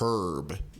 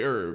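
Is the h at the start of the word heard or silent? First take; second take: heard; silent. First: The word starts with an audible h sound. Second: The word starts with a vowel, no h. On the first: The speaker copies people reading the letter literally. The speaker calls it wrong. "they see the H on paper" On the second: This is the usual American way to say it. The speaker calls it right. "American English, you can just say herb"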